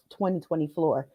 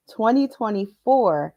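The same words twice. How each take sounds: First: "twenty twenty floor" said with floor instead of four; slip of the tongue. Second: Said in the usual way. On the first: Real, not acted. Coach stumbling over the year to her clients, slip on "floor". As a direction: trip over "floor" softly, then catch it.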